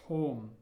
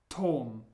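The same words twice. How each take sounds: The two takes are said the same way.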